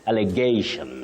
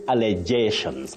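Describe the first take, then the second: First: The g is hard, like in go. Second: The g is soft, like a j sound. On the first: The speaker calls it right. "not J, it's G" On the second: The speaker calls it wrong. "what we should avoid is saying allegations"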